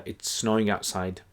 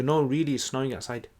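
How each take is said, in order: First: Said in the usual way. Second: REALLY pitched up to convince; insistent emphasis. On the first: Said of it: "So you added the word "really". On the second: Shown as a demonstration. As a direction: lean on "No, really" to convince a doubter. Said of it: "trying to convince someone".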